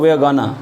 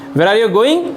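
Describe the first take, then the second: First: The words are squeezed into a short reduced form. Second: Each word is said fully and separately.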